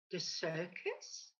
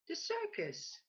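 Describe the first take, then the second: First: Low, slow puzzled query with a rising end; puzzled question. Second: Landlord's reply pitched much higher with a falling end; bright, higher landlord voice confirming; cheerful confirmation. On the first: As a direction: duck asking back in disbelief. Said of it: "the duck inquires". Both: A narrator's reading.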